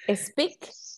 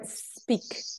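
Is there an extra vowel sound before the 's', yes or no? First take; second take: yes; no. First: An extra vowel sound comes before the s. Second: No extra vowel sound comes before the s. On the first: "A speak or speak?" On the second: "A speak or speak?"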